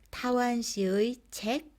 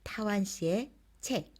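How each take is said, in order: First: The particle is pronounced with the vowel 'ui'. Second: The particle is pronounced with the vowel 'e'. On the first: "의 또는 에로 발음할 수 있어요" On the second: "에로 발음할 수 있어요"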